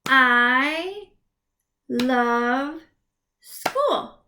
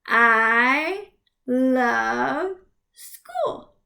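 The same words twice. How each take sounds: First: Teacher pausing between words; clapped words. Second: Drawn out very slowly; teacher dragging out every word. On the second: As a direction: stretch the sentence out. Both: Shown as a demonstration. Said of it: "clap it out".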